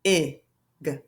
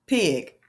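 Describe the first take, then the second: First: P, I, G as separate letter sounds with long gaps; P-I-G broken into single phonics sounds; sounded out. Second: Said in the usual way. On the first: Shown as a demonstration. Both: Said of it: "sound it out".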